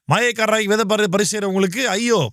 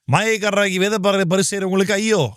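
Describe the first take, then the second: Both takes have the same delivery.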